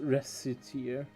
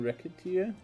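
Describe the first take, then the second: First: The first part sounds like the word reset. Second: The first part sounds like the word racket. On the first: It follows the character's name. "It's it's supposedly pronounced Reciteer" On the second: It suggests wrecking stuff. "I do like pronouncing it Racketeer"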